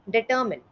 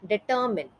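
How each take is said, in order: First: The last syllable sounds like 'min'. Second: The last syllable sounds like 'min'.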